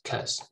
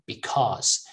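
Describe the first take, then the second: First: The first syllable is dropped entirely. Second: The first syllable has a full, strong vowel. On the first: "Sometimes they even just say cause" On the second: "That's the strong pronunciation"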